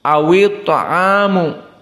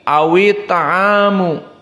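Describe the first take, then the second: The two takes are said the same way.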